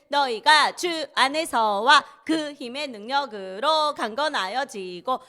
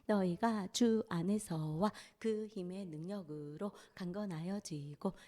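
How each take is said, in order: First: It is said in a loud voice. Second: It is said in a soft voice.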